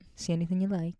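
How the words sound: It is said in a flirty, suggestive tone.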